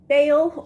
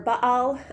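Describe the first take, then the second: First: It is said the usual English way. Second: It is said the Hebrew way. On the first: "Baal is often what you'll hear in English" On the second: "the second one is the Hebrew pronunciation"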